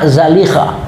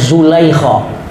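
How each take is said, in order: First: The name is said as Zalikha. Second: The name is said as Zulaikha. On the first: This is the form the scholars give. "Sebenarnya dobit yang diberikan ulama" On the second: This is how local people read it. "orang kita bacanya"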